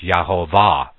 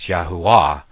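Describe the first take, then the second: First: The middle consonant is a v sound. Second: The middle consonant is a w sound. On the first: The speaker calls it wrong. "if you put the contemporary pronunciation of letters to the pronunciation that they have here, it's Yahovah" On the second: The speaker calls it right. "we know that the V is not pronounced in the Hebrew, so it's Yahuwah"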